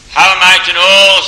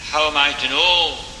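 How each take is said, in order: First: Much louder and higher, an anguished plea; desperate cry. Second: Said in the usual way. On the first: Acted. Bartimaeus pleading to know he is heard, desperate loud cry. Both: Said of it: "says Bartimaeus".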